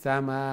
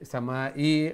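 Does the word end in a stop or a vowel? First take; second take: stop; vowel. First: The word ends with the final sound stopped. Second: The word ends with an added vowel sound. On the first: The speaker calls it right. "সাকিন করিয়া" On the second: The speaker calls it wrong. "সামা ই হইয়া আমরা স্টপ করতাম না"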